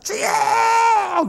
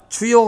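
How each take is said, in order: First: It is said with forceful, emotional emphasis. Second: It is said plainly, without force.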